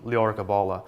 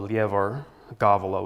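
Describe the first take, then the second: First: It is said with the modern Irish pronunciation. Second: It is said with reconstructed medieval Irish pronunciation. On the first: "in Modern Irish would be called the Leor Gabala" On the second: "in Middle Irish, it's called the Lievor Gavala with the emphases on the first syllables"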